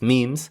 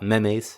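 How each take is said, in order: First: It is pronounced the standard English way. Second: It is pronounced the way Spanish speakers say it. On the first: The speaker calls it right. "it's memes" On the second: The speaker calls it wrong. "I hear a lot of Spanish speakers saying memes. Okay, it's not memes"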